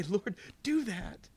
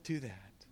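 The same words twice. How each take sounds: First: Slow, drawn-out plea; slow earnest plea. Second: Softer, lower echo; quiet repeated plea. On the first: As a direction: plead each word slowly. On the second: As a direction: repeat it under your breath. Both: Real, not acted. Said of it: "I say".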